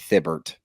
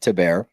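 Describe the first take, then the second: First: The surname does not sound like 'T-bear'. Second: The surname sounds like 'T-bear'. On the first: The speaker calls it wrong. "we've been saying" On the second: The speaker calls it right. "That's how it's pronounced"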